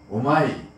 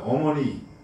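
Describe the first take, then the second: First: It is said in regional dialect pronunciation. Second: It is said in standard Korean pronunciation.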